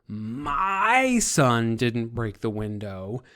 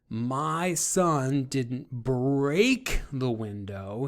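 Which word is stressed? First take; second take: my; break. First: The word "my" carries the strongest stress. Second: The word "break" carries the strongest stress. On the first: Someone else's son broke the window. "deflecting guilt from your son to someone else's son" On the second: The window was only cracked or chipped, not broken. "he didn't break it, he just maybe cracked it or chipped it"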